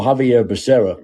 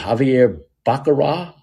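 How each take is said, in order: First: Said in the usual way. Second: Baccarat said as BAH-kuh-RAH, questioning; mock fumble on Baccarat, like the card game; mispronounced surname. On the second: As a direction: botch the surname into "Baccarat" with a rising end. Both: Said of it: "What did he call him?".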